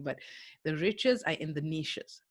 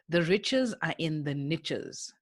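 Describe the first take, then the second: First: Niches is said in the speaker's own non-American way. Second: Niches is said the American way, rhyming with riches.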